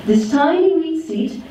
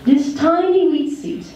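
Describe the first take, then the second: No difference in how they are said.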